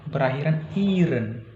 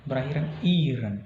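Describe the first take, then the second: Both takes have the same delivery.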